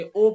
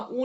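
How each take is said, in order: First: "او" said as a long "o"; "او" as in English "oh"; majhool waw. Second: "او" said as a long "oo"; "او" as in English "ooze"; maruf misreading. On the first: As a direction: open "او" to oh, not oo. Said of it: "او پڑھ رہے ہیں". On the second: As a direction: round "او" into uu. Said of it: "یہاں او نہیں پڑھیں گے". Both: Shown as a demonstration.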